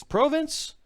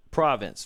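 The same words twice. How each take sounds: First: "Province" with a long "oh", rising high as a question; "Province" queried, first vowel as in "go"; questioning second pronunciation. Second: "Province" with an open "ah" in the first syllable, falling; "Province" stated, first vowel as in "father"; first pronunciation guess. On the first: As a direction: ask "Province" as PROH-vince, pitched up. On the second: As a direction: say "Province" as PRAH-vunce. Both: Shown as a demonstration. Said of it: "How do you say it?".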